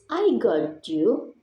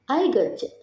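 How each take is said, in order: First: Each word is said separately and fully. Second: The words blend together with reduced sounds. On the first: "for the last is" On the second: "turns into"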